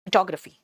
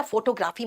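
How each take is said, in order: First: फोटोग्राफी said as fuh-TOG-ruh-fee; one joined word, fuh-TOG-ruh-fee, for फोटोग्राफी; correct English pronunciation. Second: फोटोग्राफी said as FOH-toh-GRAA-fee; two separate words, foto-graafi, in फोटोग्राफी; wrong pronunciation. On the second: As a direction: say फोटोग्राफी with long o's and a long aa. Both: Shown as a demonstration. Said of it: "फोटोग्राफी मत बोलना".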